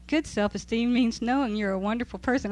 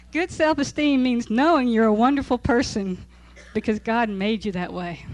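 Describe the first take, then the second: First: Said in the usual way. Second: "Good self-esteem means knowing you're a wonderful person" read louder with a laughing, mocking punch on knowing; scoffing reread. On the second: Teacher rereading the book line to her class, louder and mocking. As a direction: scoff at the claim as you repeat it. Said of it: "I'm not buying it".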